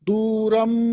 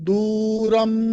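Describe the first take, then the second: Both takes have the same delivery.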